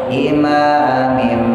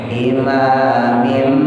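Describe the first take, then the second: Both takes have the same delivery.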